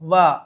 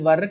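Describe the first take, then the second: First: The word ends in a long vowel, no r. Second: The word ends with an audible r sound. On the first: The speaker calls it right. "వా అంటే సరిపోతుంది" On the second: The speaker calls it wrong. "అది వర్ కాదండి"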